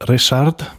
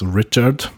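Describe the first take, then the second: First: The name is said with a Polish pronunciation. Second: The name is said with an English pronunciation. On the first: This is the name as used in Poland. "I'm born as Richard, because I'm born in Poland" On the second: This is the name as used in English. "in English, it's written like Richard is Richard"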